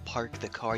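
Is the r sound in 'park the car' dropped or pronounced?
pronounced. The r sounds are pronounced clearly.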